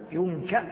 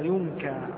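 First: The word ends with a glottal stop. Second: The word ends with a long vowel. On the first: "رواية بالهمزة" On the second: "رواية بالياء الزالف المقصورة"

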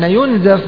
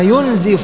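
First: The vowel after the z is a, yunzaf. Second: The vowel after the z is i, yunzif. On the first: "ينزف بالبناء للمجهول من قولهم إيش؟ نزف الرجل" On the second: "وأما ينزف فمن قولهم أنزف الرجل"

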